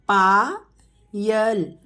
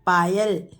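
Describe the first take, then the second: First: Payal stretched very slowly; slow teacher model of Payal. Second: Said in the usual way. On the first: Shown as a demonstration. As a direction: draw Payal out sound by sound. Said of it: "teacher models name slowly". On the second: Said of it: "quick plain repeat".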